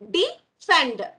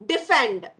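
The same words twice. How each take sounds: First: "Defend" split in two, a pause after "De"; broken into syllables. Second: Said in the usual way. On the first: Shown as a demonstration. Teacher showing children the syllable break, split syllables. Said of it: "We say like that". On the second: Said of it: "We read it".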